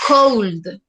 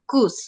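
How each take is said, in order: First: "cold" con la O y la L bien sonoras, por "could"; todas las letras suenan. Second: "could" con una sola U y la L muda; pronunciación correcta. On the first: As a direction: pronuncia "cold" letra por letra, como error. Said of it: "No vamos a decir cold, que suene todo". ("cold" mal dicho, con la L marcada) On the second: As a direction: di "could" sin que suene la L. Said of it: "no, sino could". ("could" bien dicho, como "cud") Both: Shown as a demonstration.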